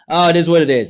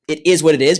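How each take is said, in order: First: It is said with a resigned, negative sigh. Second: It is said plainly, without negative emotion.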